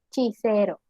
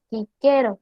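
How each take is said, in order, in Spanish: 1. Cada C se pronuncia con sonido CH. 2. Cada C se pronuncia con sonido K. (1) "se cambia la pronunciación a C H" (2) "La C sonaba siempre como K"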